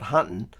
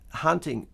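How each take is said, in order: First: The word ends with a plain 'n' sound. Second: The word ends with a clear 'ng' sound. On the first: The speaker calls it wrong. "not an N" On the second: The speaker calls it right. "hunting with a G"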